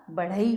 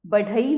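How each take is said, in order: First: Said in the usual way. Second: बढ़ई as badhai with a hard dh; बढ़ई without the flap. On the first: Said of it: "बढ़ई होता है". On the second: Shown as a demonstration. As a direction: stop the tongue on dh in बढ़ई. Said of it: "बढ़ई नहीं होता".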